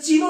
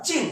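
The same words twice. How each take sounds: First: চিহ্ন said as "chino", with a final o; vowel left on the end of চিহ্ন; wrong open ending. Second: চিন as one closed syllable; চিন with no vowel after the n; correct stopped ending. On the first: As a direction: misread চিহ্ন as two syllables, "chi-no". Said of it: "তাহলে কি এটা চিহ্ন না". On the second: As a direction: stop dead on the n of চিন. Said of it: "এখানে একটা থেমেছি". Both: Shown as a demonstration.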